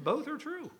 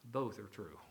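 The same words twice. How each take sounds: First: "Both are true" lifted much higher in pitch; emphatic repeat. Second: Low, soft "both are true"; understated conclusion. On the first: Real, not acted. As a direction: repeat "Both are true" high, softly driving it home. Repeats conclusion to make the point. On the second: Retold or imitated. Quoted conclusion, first take.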